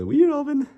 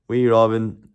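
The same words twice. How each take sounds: First: "Wee Robin" cooed in a very high falsetto; sing-song it way up high, babying him; friend's teasing coo. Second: Said in the usual way. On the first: Retold or imitated. Korean friend calling Robin with a high falsetto coo. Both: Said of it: "he would always call me Wee Robin".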